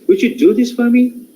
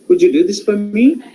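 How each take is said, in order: First: The pitch rises steadily through to the end. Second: The pitch rises only on the last part. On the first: The speaker calls it right. "rising, so it should continue to till the end" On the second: The speaker calls it wrong. "We come to the last part"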